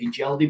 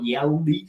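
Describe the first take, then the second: First: The name begins with a sounded H. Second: The name begins with a silent H. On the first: This is the speaker's usual habit. The speaker calls it wrong. "although I always say he Yeldy" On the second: This is the proper way to say it. The speaker calls it right. "with a silent H"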